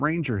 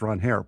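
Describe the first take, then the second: First: The name sounds like the English word 'ranger'. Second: The name sounds like 'Ron' followed by 'hare'. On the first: The speaker calls it wrong. "Everyone's been calling him Ranger his entire major league career" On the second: The speaker calls it right. "my name is actually pronounced Ron Hare"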